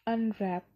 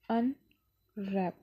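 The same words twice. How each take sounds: First: Said in the usual way. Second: "unwrap" very slow, split as अन… रैप; long pause between अन and रैप; syllable by syllable. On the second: Shown as a demonstration. (Unwrap को दो हिस्सों में तोड़कर) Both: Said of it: "इसमें दो syllables हैं".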